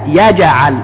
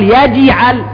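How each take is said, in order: First: The j sound ends with a light bounce toward a. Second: The j sound ends with a heavy, exaggerated bounce. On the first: The speaker calls it right. "هكذا أقرب إلى الفتح" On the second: The speaker calls it wrong. "ما أقول يجعل كما يتكلف البعض"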